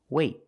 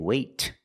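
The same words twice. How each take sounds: First: The final T is held without releasing air. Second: The final T is released with a puff of air. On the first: The speaker calls it right. "It's a stop T. I stop the air" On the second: The speaker calls it wrong. "I don't say wait. I don't release the T"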